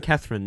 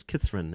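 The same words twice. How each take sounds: First: Said in the usual way. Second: "Catherine" with a short i, like "Kithrin"; New Zealand vowel. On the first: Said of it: "It was Catherine". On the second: Shown as a demonstration. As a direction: say "Catherine" as "KITH-rin", New Zealand style. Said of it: "she always talked like this".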